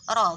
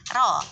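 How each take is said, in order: First: The r is thick, with rounded lips. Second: The r is thin, without rounded lips. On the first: The speaker calls it right. "mesti udah moncong kan ya" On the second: The speaker calls it wrong. "nggak mungkin bacanya kayak gitu"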